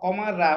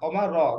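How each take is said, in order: First: The final r is followed by a full vowel. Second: The final r has no full vowel after it. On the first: The speaker calls it wrong. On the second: The speaker calls it right.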